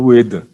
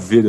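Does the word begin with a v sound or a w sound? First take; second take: w; v. First: The word begins with a w sound. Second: The word begins with a v sound. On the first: "ela fala Ueda" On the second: "ela não fala Veda"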